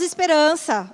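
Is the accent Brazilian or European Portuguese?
Brazilian. It has a Brazilian accent, second vowel clear.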